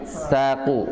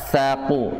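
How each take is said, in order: The two takes are said the same way.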